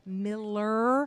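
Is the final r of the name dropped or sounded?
sounded. The name ends with a clear r sound. The speaker calls it right. "his name's Miller"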